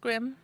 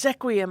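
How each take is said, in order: First: The s runs straight into the qu. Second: A vowel comes between the s and qu. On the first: The speaker calls it right. "mom was right. It was squim" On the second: The speaker calls it wrong. "no, I bet it's sequiem"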